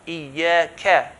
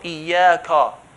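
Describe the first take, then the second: First: The k sound is light and thin. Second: The k sound is heavy and full. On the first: The speaker calls it right. "kaf is from the light letters" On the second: The speaker calls it wrong. "So it's not"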